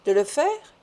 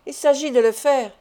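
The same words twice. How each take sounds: First: "De le faire" rising into a question; higher, questioning "De le faire", taken aback; startled question. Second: "de le faire" stated firmly with a falling end; "de le faire" as a decided, falling statement. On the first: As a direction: echo "De le faire" in surprise, pitch climbing. Doctor echoes the demand in disbelief. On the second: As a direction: put weight on "de le faire" and close it down. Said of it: "dit Hermod". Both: A narrator's reading.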